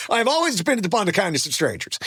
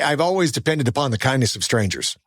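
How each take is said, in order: First: Quoted film line. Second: Said in the usual way. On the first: Acted. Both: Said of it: "Remember that from Streetcar Named Desire".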